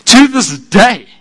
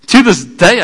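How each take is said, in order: First: To this day drawn out slow, falling at the end; slow falling emphasis. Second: To this day lifted with a rise at the end; rising, building to this day; rising repeat. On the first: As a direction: lean into To this day, slowly. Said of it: "repeated phrase, first take". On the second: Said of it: "repeated phrase, second take". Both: Acted.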